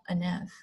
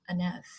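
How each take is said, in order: The two takes are said the same way.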